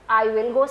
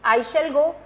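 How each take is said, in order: First: Said in the usual way. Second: Slow dictation. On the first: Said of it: "same meaning है". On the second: Shown as a demonstration. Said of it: "जैसे मैं लिखती हूँ यही sentence".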